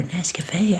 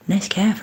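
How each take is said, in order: First: Nescafe with a final "ay"; "ay"-ending pronunciation. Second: Nescaf ending on an f, no final vowel; clipped-ending pronunciation. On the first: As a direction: say Nescafe in full, ending like "cafe". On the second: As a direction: say Nescaf to rhyme with "calf", stopping on the f. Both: Shown as a demonstration. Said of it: "I'm not sure how you say it properly".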